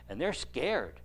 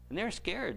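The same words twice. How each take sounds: First: Said in the usual way. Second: Repeated higher for emphasis; higher, stressed repeat of they're scared; emphatic repeat. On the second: Shown as a demonstration. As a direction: lift it up the second time, stressing scared.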